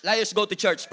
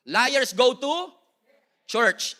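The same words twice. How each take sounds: First: Said in the usual way. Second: Very slow, louder, pause before church; preacher's slow loud punchline; slow dramatic punchline. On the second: Acted. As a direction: drag it out then drop church. Punchline delivered for effect.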